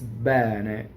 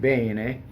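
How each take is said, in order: First: The first vowel is an open E. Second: The first vowel is a closed E. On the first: "everywhere else, it's Bene, open E" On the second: "if you're in Milan, then you're saying Bene"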